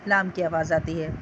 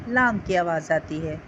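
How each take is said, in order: No difference in how they are said.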